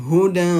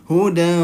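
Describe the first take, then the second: The two takes are said the same way.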